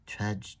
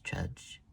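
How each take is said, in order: First: Trudge said slow and heavy, dragging; trudging word. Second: Fading trudge. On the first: Narrator drags out the tired walk, slow and heavy. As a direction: drag out Trudge like weary steps. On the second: Narrator lets the second trudge fade, softer. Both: A narrator's reading.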